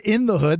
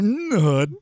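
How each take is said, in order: First: The first word is a full 'in' with a vowel. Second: The first word is reduced to a bare 'n'. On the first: The speaker calls it wrong. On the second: The speaker calls it right.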